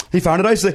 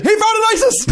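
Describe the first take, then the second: First: Said in the usual way. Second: Very high, campy lilt; sassy Trump. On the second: Retold or imitated.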